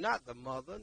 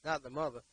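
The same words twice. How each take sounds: First: Not pushed up with a rising tune, then the mother; stress on not. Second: Not hit hard and falling, then the mother; stress on Not. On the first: Preacher correcting fathers, rising stress on not. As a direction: lift not and let the phrase rise. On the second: Preacher repeating his point to fathers, falling stress on Not. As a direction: land Not firmly and let the phrase fall. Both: Real, not acted.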